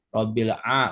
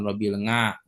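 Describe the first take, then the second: First: The second word begins with a vowel sound. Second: The second word begins with an ng sound. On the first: The speaker calls it right. "robil a bukan" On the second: The speaker calls it wrong. "bukan robil nga"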